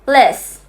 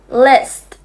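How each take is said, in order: First: It is fast, and the final t is dropped. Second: It is slow, and the final t is pronounced. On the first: "Now say it faster, The t is not pronounced" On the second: "Say it slowly"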